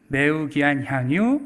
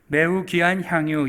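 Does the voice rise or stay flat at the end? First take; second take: rise; flat. First: It is read with questioning rises. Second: It is read flat, as a plain statement.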